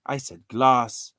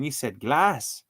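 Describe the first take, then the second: First: GLASS said slowly as "gloss"; GLASS rounded towards "gloss"; own pronunciation. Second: GLASS said slowly as the other person said it; imitated pronunciation. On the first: Shown as a demonstration. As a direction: stretch GLASS out with an O-like vowel. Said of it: "tried to spell it with an O". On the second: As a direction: stretch GLASS out, with its usual short A. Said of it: "the O doesn't sound like that".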